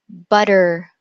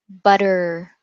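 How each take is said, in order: The two takes are said the same way.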